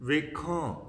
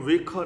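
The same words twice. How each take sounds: First: ਵੇਖਾਂ with a nasalised final vowel; ਵੇਖਾਂ as "vekhaan", first-person form; correct reading of ਵੇਖਾਂ. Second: ਵੇਖਾਂ misread, final nasal dropped; ਵੇਖਾਂ as "vekha", without nasalisation; wrong reading of ਵੇਖਾਂ. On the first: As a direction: end ਵੇਖਾਂ on a long nasal "aan". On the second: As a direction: say ਵੇਖਾਂ with a purely oral final vowel. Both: Shown as a demonstration. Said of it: "ਇਹਨੂੰ ਵੇਖਾਂ ਨਹੀਂ ਪੜ੍ਹਨਾ".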